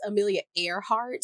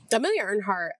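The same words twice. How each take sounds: First: Earhart without the n, "AIR-hart"; corrected Earhart. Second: Earhart misspoken as "Earnhardt"; Earnhardt slip. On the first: Shown as a demonstration. Vlogger correcting a slip, Earhart said as "AIR-hart". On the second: Real, not acted. Vlogger slips on the aviator's surname, Earhart said as "Earnhardt". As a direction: say Earhart with an n, "URN-hart". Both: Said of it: "I keep saying Earnhardt".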